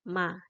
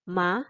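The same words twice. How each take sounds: First: The pitch is light and neutral. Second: The pitch rises slightly. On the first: "membacanya adalah ringan saja" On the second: "untuk nada kedua, naik sedikit"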